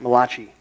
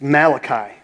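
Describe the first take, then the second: First: The name is said in an Italian-sounding way. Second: The name is said in a plain English way. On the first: The book sounds like it has an Italian name. "it's the Italian book, only because you can pronounce it Malachi" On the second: This is how the name is normally said. "But it's Malachi"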